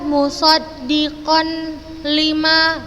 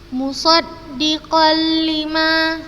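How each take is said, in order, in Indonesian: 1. Bunyi n dibaca sebelum l. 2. Bunyi n melebur sepenuhnya ke l setelahnya. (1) "Bukan dibaca musaddiqan lima, la, khata, salah" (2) "Ustazah contohkan"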